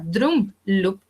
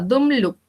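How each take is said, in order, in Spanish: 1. El primer sonido se divide en dos sonidos. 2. El primer sonido es un solo sonido. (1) "pero ahora suena drum loop, o sea, se dobló el primer tono cardíaco" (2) "si normalmente sonaba dum loop"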